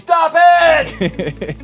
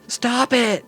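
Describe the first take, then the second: First: It is screamed loudly, really freaking out. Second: It is said in a restrained, quiet voice.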